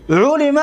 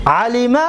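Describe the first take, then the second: First: علم said "ulima", opening on a higher "u"; passive-voice form. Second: علم said "alima", opening on an open "a"; active-voice form. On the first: Teacher shows students the verb made passive, علم pronounced "ulima". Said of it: "دیدید مجهول شد". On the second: Teacher shows students the active verb, علم pronounced "alima". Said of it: "دانست و یک مرد". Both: Shown as a demonstration.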